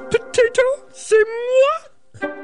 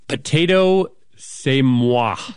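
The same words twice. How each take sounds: First: It is said in a Miss Piggy voice. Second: It is said in her normal voice.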